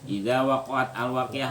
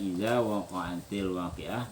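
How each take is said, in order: First: The words join with no vowel between them. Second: An 'i' vowel links waqa'at to waqi'ah. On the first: "wakoat sukun, al sukun" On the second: "maka itu dibacanya idza waqa'atil waqi'ah"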